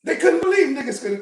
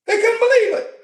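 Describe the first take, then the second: First: Said in the usual way. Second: Believe punched high and loud, falling; emphatic disbelief. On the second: Shown as a demonstration. Preacher to congregation, believe hit high and loud. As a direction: lean hard on believe with a raised, louder voice.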